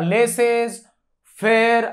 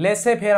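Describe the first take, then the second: First: An s sound ends the first word. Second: The first word ends without an s sound. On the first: The speaker calls it wrong. "याला लेसेस फेअर असं नाही" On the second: The speaker calls it right. "लेसे फेअर असं pronunciation आहे"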